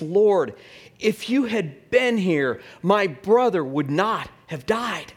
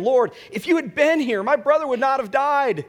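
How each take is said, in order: First: Slow, raised-pitch plea to the Lord; lightly voiced reproach, drawn out slowly; Martha. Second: High, loud outcry to the Lord; Mary. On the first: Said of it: "Martha said to Jesus". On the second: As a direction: plead it at a much higher pitch, pushing the volume. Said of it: "When Mary came to where Jesus was". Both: A narrator's reading.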